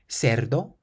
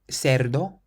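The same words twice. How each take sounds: The two takes are said the same way.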